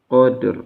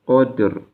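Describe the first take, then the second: Both takes have the same delivery.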